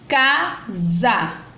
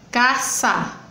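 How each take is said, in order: First: The middle consonant is a voiced z sound. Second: The middle consonant is a voiceless s sound. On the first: The speaker calls it right. "são escritas com S, mas tem som de Z" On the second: The speaker calls it wrong. "não botando o som de Z, mas botando o som do S"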